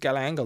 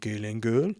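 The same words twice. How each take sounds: First: The name is said without a French accent. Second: The name is said with a French accent.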